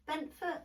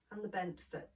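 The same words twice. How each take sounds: First: Bent foot with foot raised high; correcting herself, hit the word foot; stress on foot. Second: Said in the usual way. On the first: Shown as a demonstration. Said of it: "No, the foot, sorry". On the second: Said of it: "that didn't make any sense".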